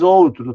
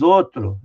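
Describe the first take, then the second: First: Outro with a clear ow glide, like owtro; the pronunciation nobody uses; careful diphthong ou. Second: Outro said as ôtro, closed o with no glide; how everyone really says it; everyday reduced ô. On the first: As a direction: sound the full diphthong in outro. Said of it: "Ninguém diz". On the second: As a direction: drop the diphthong in outro. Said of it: "todo mundo diz". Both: Shown as a demonstration.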